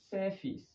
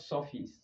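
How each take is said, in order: First: The first vowel is long. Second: The first vowel is short. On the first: The speaker calls it right. "but surface" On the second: The speaker calls it wrong. "Here is not surface"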